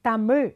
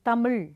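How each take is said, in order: First: The word is said with a proud tone. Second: The word is said flatly, without pride. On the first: The speaker calls it right. "ஒரு ஒரு பெருமை வரணும்" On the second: The speaker calls it wrong. "சொல்லக்கூடாது"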